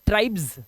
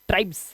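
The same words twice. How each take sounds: First: The word ends with a buzzing z sound. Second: The word ends with a hissing s sound. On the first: The speaker calls it right. "इसका उच्चारण ना जा का आता है" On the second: The speaker calls it wrong. "तो अब इसे ट्राइब्स नहीं पढ़ेंगे"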